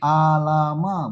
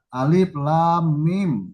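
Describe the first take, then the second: First: The letters are run together as short syllables. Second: Each letter is said by its full name. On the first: The speaker calls it wrong. "bukan alama" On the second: The speaker calls it right. "bukan begitu bacanya kan?"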